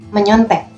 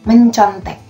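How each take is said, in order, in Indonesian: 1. Konsonan di tengah adalah bunyi 'ny'. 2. Konsonan di tengah adalah bunyi 'nc'. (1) "N bertemu dengan C menjadi ny" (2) "itu sebenarnya tidak baku"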